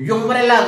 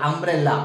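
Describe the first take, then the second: First: The word begins with a 'yoo' sound. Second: The word begins with an 'uh' vowel sound. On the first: The speaker calls it wrong. "యు యుంబ్రెల్లా కాదు" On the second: The speaker calls it right. "అంబ్రెల్లా ఆ sound ఆ sound అంటే ఇది vowel sound"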